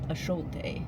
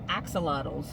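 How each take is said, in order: First: The word is said with Spanish-style sounds. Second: The word is said with English-style sounds. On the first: The speaker calls it right. "I guess the Mexicans pronounce it axolotl" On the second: The speaker calls it wrong. "I know we pronounce it wrong"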